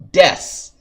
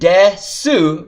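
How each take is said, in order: First: The final u vowel is dropped after s. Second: The final u vowel is clearly pronounced. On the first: "it's pronounced des" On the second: "it's written desu"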